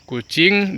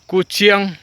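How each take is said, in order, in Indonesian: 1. Kata ini berakhir dengan bunyi ing biasa. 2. Kata ini berakhir dengan bunyi iang. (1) "Kucing dibaca kuciang" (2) "dibaca kuciang"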